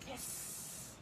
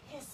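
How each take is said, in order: First: Long unvoiced hiss through the teeth, like a snake; breathy sss with no voice, slithering. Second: Quick clipped hiss, cut off early; a brief sss like a snake; short snake hiss. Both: Shown as a demonstration. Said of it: "hiss like a snake".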